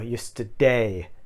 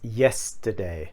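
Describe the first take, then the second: First: The stress falls on a later syllable. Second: The stress falls on the first syllable. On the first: The speaker calls it wrong. "it's not something like um, yesterday or yesterday" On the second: The speaker calls it right. "It's yesterday"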